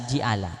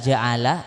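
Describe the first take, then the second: First: The first vowel is i. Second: The first vowel is a. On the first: "dibaca kasrah" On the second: "dibaca fathah"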